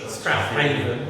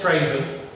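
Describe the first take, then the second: First: The name is said in three syllables. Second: The name is said in two short syllables. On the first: This is how the road sign's spelling reads. "but Strathaven" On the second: This is how locals actually say it. "I know it's Straven"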